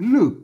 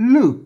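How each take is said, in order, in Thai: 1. สระนี้เป็นเสียง 'eu' แบบปิด 2. สระนี้เป็นเสียง 'eu' แบบปิด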